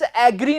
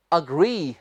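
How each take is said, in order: First: "एग्री" with open "ae" start; wrong pronunciation. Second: "अग्री" low and softer, short "uh" start; correct pronunciation. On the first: Teacher drilling the error out of students, mispronounced. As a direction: say the mistaken "एग्री" as AE-gree. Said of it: "एग्री नहीं". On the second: Teacher fixing it in students' minds, carefully pronounced. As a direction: model "अग्री" as uh-GREE, falling. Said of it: "दिमाग में बैठा लें". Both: Shown as a demonstration.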